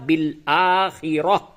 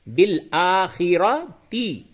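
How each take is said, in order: First: The word ends with an h sound. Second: The word ends with a ti sound. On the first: The reader stops at this word. "लेकिन वक्फ करेंगे तो क्या होगा?" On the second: The reading continues into the next words. "मिला के पढ़ेंगे तो बिल आखिरती"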